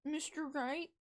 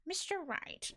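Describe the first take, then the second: First: High-pitched, questioning character voice; second voice attempt. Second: High-pitched character voice, falling at the end; rejected voice attempt. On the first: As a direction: try the name high, rising at the end. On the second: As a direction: try out a high game-character voice. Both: Shown as a demonstration. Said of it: "Nope, that's not it".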